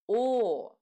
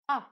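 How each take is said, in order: First: The vowel is a full, rounded O sound. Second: The vowel is a neutral, open A sound. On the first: The vowel is stressed. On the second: The vowel is unstressed.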